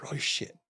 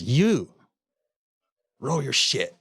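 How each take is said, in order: First: Same order, now whispered and breathless; retold whisper. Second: Sharp, loud barked order from the guard; retold guard's shout. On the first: Guard repeats the order to the inmate in a whisper. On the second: Prison guard orders the cussing inmate to pack up, shouting.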